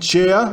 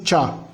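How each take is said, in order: First: The e is sounded as its own vowel. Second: The e is silent, giving a plain a. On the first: The speaker calls it wrong. "C e A não é chea" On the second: The speaker calls it right. "e sim cha"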